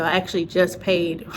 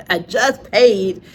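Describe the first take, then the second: First: Said in the usual way. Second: JUST PAID drawn out slow and loud; emphatic repeat. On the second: Real, not acted. Admitting to viewers she bought more sessions, emphatic "just paid". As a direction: lean hard on "just paid", laughing into it. Laughing emphatic restatement of spending.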